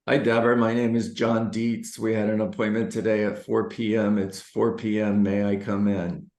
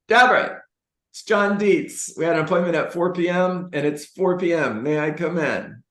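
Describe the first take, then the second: First: It is said flatly, with no energy. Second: It is said with lively, high energy.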